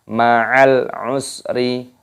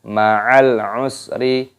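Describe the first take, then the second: Both takes have the same delivery.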